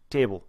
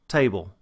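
First: The glide is almost entirely dropped. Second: The vowel has a strong, distinct glide. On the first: "the Boston accent, and they almost, again, eliminate the diphthong" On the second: "When you have a Texas dialect"

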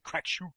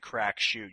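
First: It is said in an exaggerated, funny accent. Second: It is said in a plain, ordinary accent. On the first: The speaker calls it right. "You have to say Crack Shoot" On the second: The speaker calls it wrong. "so you can't just say Crack Shoot"

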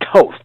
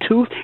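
First: The vowel is not an oo sound. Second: The vowel is a long oo, as in tooth. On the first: The speaker calls it right. "It is Toth. Get it straight" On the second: The speaker calls it wrong. "It is not Tooth"

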